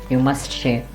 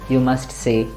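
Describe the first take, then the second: The two takes are said the same way.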